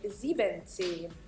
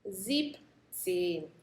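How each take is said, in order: First: The full form sieben is kept, three syllables. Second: Sieben is shortened to sieb, two syllables. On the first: The speaker calls it wrong. "we don't say siebenzehn" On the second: The speaker calls it right. "We shorten the sieben and make it a sieb"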